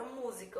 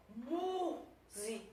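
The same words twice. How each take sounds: First: Said in the usual way. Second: Música with a long, higher MÚ; Música drawn out slowly, MÚ held longest; stress on first syllable. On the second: Shown as a demonstration. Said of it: "da sílaba tônica".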